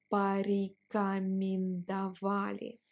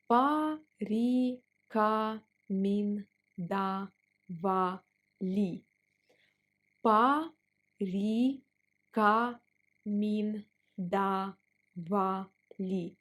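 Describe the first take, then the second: First: Said in the usual way. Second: Порекомендовали drawn out; slow teaching pace on порекомендовали. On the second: Shown as a demonstration. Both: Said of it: "Let's pronounce it slower".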